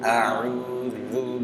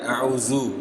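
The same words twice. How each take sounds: First: The final consonant is a soft dh with lips back. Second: The final consonant is a buzzing z with rounded lips. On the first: The speaker calls it right. "Maka mundurin dikit" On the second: The speaker calls it wrong. "Bukan ... Bukan berubah menjadi huruf zai"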